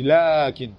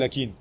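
First: The first vowel is held long. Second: The first vowel is cut short. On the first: The speaker calls it right. "Tu dis lakin" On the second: The speaker calls it wrong. "tu ne dis pas lakin"

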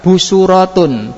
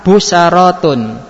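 First: An u vowel follows the second consonant. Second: An a vowel follows the second consonant. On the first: "pertama harokat idba" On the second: "Yang kedua harokat fathah"

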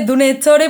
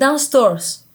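First: The name is pronounced with Andalusian Spanish sounds. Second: The name is pronounced with English sounds. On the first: The speaker calls it wrong. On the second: The speaker calls it right.

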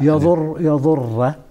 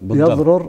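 First: The r is doubled and ends with an a. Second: The two r sounds are separated, ending silent. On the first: "مع الفتح" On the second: "هذا فك الإدغام مع الجزم"

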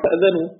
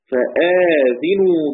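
First: The vowel after the hamza is short, no lengthening. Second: The vowel after the hamza is long, dhal with i. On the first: "والباقون طبعا" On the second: "بالمد بعد الهمز ثم كسر الزي"

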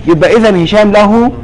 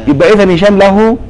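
The two takes are said the same way.

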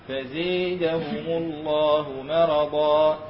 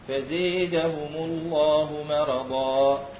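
Both takes have the same delivery.

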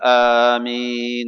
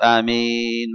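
First: The first vowel is drawn out long. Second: The first vowel is short. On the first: "قيل بأن تمد الهمزة يقول آمين مثلا" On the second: "بأن تمد الياء فقط آمين مثلا"

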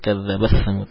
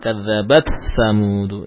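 First: The t sound merges into the following s. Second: The t sound is released clearly before the s. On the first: "ada yang membaca dengan mengidgham kadzabat samud" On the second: "Kalau kita membaca idhar"

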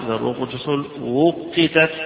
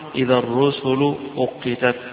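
First: The last word begins with a w sound. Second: The last word begins with a glottal stop. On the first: This is the reading of one particular reciter. "هذه قراءة أبي عمرو" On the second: This is the reading of most reciters. "قراءة جمهور القراء"

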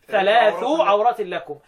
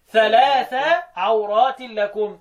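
First: The first word ends in a short 'u' vowel. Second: The first word ends in a short 'a' vowel. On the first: The word is in the nominative case. "البدء بثلاث مرفوعه كده" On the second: The word is in the accusative case. "بالنصب"

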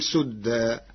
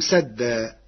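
First: The first vowel is a 'u' sound. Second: The first vowel is an 'a' sound.

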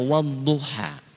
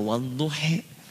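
First: The final vowel is an open a sound. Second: The final vowel is shifted toward an e sound. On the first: "ada yang pakai A" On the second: "ada yang pakai E"

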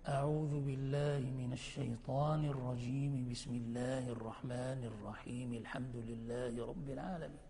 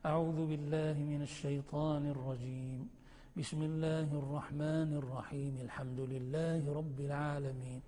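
First: All three phrases run together without pausing. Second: Pause after the first phrase; the rest joined. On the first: "فتصل الكل" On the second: "وتقف على التعوذ وتصل بسم الله"

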